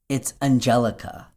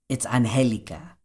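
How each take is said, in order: First: The name is said the English way. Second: The name is said the Spanish way.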